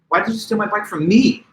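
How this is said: The word me is stressed. The victim thought they were friends with the thief. "Now I'm accenting the word me"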